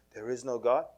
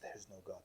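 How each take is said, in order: First: Said in the usual way. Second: Very soft, low murmur; sly hushed insinuation. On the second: Retold or imitated. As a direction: slip it in almost under the breath.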